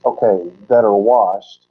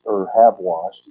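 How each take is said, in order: First: Said in the usual way. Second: Slow, have washed with the weight on have; stress on have. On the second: Shown as a demonstration. Teacher correcting the translation, stress on have. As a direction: lean on the word have. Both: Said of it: "it should say".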